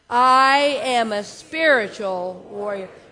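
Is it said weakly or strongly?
strongly. It is said strongly, with conviction.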